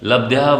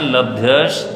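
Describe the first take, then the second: First: The word ends with a plain vowel. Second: The word ends with a breathy visarga sound. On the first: "लब्ध्या बोल दो तब भी सही है" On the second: "आधा शाह बना होता है वो विसर्ग का होता है"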